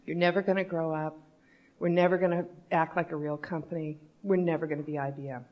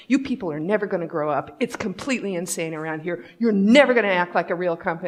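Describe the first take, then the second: First: Softer, measured retake; composed, quiet restatement; calm. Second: Retold agitated rant, hitting NEVER; quick, exasperated mock outburst; worked-up rant. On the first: Retold or imitated. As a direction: repeat it calmly, with pauses. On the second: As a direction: imitate a fed-up colleague ranting fast. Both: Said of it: "say that again just a little calmly".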